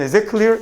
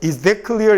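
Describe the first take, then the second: First: The 'th' of 'that' merges into 'is'. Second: The 'th' of 'that' is said clearly and separately. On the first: The speaker calls it right. "그냥 is that clear? 이렇게 읽는 거죠" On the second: The speaker calls it wrong. "이렇게 읽는 게 아니라"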